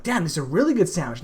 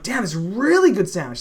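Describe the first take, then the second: First: Said in the usual way. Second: "really" lifted high and louder, falling after; stressed excited intonation. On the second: Shown as a demonstration. Showing friend the better intonation of "really". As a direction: punch "really" with real relish. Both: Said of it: "this is the intonation difference".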